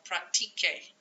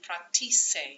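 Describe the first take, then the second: First: The consonant before the final vowel is a hard K. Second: The consonant before the final vowel is a soft S. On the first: The speaker calls it right. "keep the C sounding like a hard C" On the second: The speaker calls it wrong. "If you didn't make this change, it would sound like practice. We don't want that"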